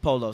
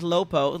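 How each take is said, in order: First: The syllables are in order, giving polo. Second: The syllables are swapped, giving lopo. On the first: The speaker calls it right. "Like no, it's polo" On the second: The speaker calls it wrong. "They can't even pronounce it"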